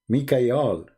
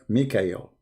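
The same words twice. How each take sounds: First: The final syllable is said as 'al'. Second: The final syllable is said as 'el'. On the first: This is the ancient form of the name. The speaker calls it right. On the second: This is the later changed form of the name. The speaker calls it wrong.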